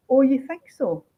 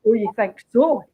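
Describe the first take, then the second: First: Said in the usual way. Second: Sneering stress on so; nasty sarcasm. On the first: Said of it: "he has her saying". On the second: Retold or imitated. The detective's real, nasty sarcastic line. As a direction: lean on "so" with a nasty, sarcastic bite. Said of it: "whereas what she's saying is".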